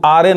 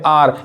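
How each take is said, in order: First: The word ends with an added e vowel. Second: The word ends on the r sound. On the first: The speaker calls it wrong. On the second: The speaker calls it right.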